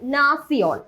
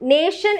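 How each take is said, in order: First: The middle sound is 'ts', German style. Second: The middle sound is 'sh', English style. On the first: The speaker calls it right. "നാസിയോൺ എന്നാണ് പറയാ" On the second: The speaker calls it wrong. "നേഷൻ എന്ന് നമ്മൾ പറയില്ല"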